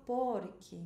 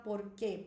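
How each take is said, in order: First: PORque, weight on POR, drawn out; stressed first syllable. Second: "por quê" with the weight on QUÊ; final-syllable stress. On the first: Teacher shows students how to say it, first-syllable stress. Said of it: "não preciso falar por quê". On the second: Teacher shows students the wrong stress, on the last syllable. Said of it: "porque seria aguda". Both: Shown as a demonstration.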